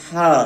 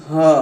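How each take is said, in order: First: हा from the throat with air; airy throat हा; breathy throat sound. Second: हा sounded from the chest. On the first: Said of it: "हलक से आएगी और हवा के साथ आएगी". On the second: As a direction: push हा up from the chest. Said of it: "इस वाली हा की आवाज़ सीने से आएगी". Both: Shown as a demonstration.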